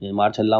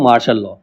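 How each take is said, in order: First: The words are merged, ending in a short 'la'. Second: The words are separate, ending in a full 'law'. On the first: This is how the village people said it. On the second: This is the standard form of the term.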